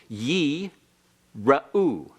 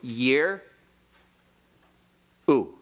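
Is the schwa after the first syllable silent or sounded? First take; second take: sounded; silent. First: The first vowel is long and the schwa sounded. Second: The first vowel is short and the schwa silent. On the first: "it has to stay open, so it becomes a long ye... The schwa becomes vocal" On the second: "the hirik is short and the schwa is silent"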